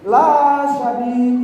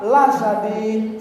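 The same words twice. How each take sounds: First: The vowel in 'la' is long. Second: The vowel in 'la' is short. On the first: The punishment is not severe. The speaker calls it wrong. "tidak pedih" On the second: The punishment is truly severe. The speaker calls it right. "Tapi harus apa?"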